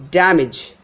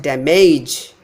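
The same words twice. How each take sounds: First: Damage as DAM-ij; stress on first syllable. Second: Damage wrongly as da-MAYJ; stress on second syllable. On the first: Teacher showing correct stress, damage as DAM-ij. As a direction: hit DAM in damage, short weak ending. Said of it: "not damage". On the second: Teacher showing the mistake, damage stressed as da-MAYJ. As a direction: stretch and hit MAGE in damage. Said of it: "If I give stress on the second syllable". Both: Shown as a demonstration.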